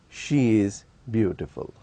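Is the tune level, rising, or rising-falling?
level. The pitch stays level and neutral. She is beautiful enough, though not very. "it can also be used in a neutral tone"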